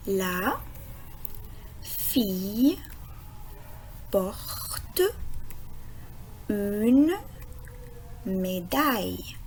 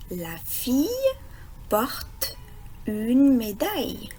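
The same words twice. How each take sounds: First: Word by word, long pause after each word; lecture mot à mot. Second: Said in the usual way. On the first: Shown as a demonstration. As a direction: sound out LA... FILLE... PORTE... UNE... MÉDAILLE slowly. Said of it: "on va essayer de lire la phrase". (lecture lente, un mot à la fois) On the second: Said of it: "lire la phrase d'aujourd'hui".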